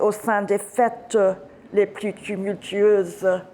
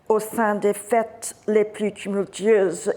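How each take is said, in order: First: The normally silent E sounds are pronounced. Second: The normally silent E sounds are dropped. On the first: It is recited as poetry. "if you're reciting poetry, you sound uh, the E, which is normally silent" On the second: It is read as prose. "rather than saying"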